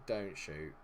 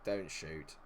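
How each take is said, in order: Both takes have the same delivery.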